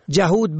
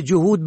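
First: جهود said "jahud"; fatha on first. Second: جهود said "juhud"; rounded u after j in جهود; u on first. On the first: Teacher shows جهود for "striver", pronounced jahud. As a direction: open a after j in جهود. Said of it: "به فتح اول". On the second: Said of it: "یهودی". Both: Shown as a demonstration.

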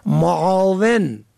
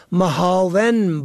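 First: Said in the usual way. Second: معاون said as mohaven, h replacing ain; mispronounced with h. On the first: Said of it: "که معنای کمک کننده". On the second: Shown as a demonstration. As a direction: put a breathed h inside معاون.

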